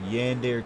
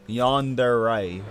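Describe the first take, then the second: First: The word ends with a 'deer' sound. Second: The word ends with a 'deh-ray' sound. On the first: The speaker calls it wrong. "I mispronounced that big time" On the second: The speaker calls it right. "it's Yandere"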